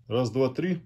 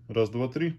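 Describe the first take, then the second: The two takes are said the same way.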